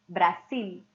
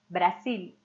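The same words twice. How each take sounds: The two takes are said the same way.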